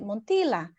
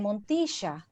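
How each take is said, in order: First: It is said the way English speakers say it. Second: It is said in Argentinian Spanish, with an sh sound. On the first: The speaker calls it wrong. "when an English speaker try to pronounce my surname, they just say Montilla" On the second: The speaker calls it right. "an Argentinian, probably they will say Montisha, which sounds different"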